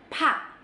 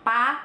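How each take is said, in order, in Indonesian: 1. Konsonan ini mengeluarkan hembusan udara yang kuat. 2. Konsonannya polos, tanpa hembusan udara. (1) "ada haknya banget" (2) "Beda ya sama pa"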